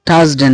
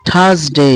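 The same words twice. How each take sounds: First: "থার্সডে" as thas-de; wrong pronunciation. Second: "থার্সডে" as thas-dey; corrected pronunciation. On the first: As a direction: say "থার্সডে" with short unglided de. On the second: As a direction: model "থার্সডে" with a long "day". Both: Shown as a demonstration. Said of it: "থার্সডে না".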